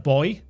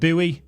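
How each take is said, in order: First: Buoy is said in the speaker's own accent. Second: Buoy is said in a North American accent.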